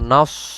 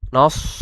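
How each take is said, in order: First: It uses a heavy, emphatic s sound. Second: The same.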